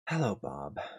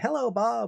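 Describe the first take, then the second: First: The greeting sounds annoyed and exasperated. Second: The greeting sounds glad and warm. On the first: The speaker does not want the person there. "as in, what are you doing here?" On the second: The speaker is happy to see the person. "which means, oh, I'm so glad to see you"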